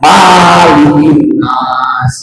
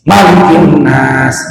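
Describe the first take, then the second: First: The first vowel of malik is long. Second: The first vowel of malik is short. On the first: The speaker calls it wrong. "Kadang-kadang malikin nas, gitu kan" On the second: The speaker calls it right. "itu yang benar"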